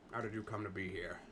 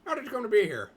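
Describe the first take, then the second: First: Trial voice. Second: Higher and louder, a bold take on the line; trial voice. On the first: Testing a character voice on the question, lower and softer. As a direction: lower and softer, a muted take. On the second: Testing a character voice on the question, higher and louder. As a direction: try the question high and loud. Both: Shown as a demonstration. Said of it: "I'll do my best to do an accent".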